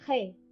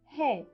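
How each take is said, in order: First: The consonant is a harsh throaty sound. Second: The consonant is a very soft breathy h. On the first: This is the standard pronunciation. "we don't pronounce he" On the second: This is the southern pronunciation. "we say he. That is a very soft aspirate H"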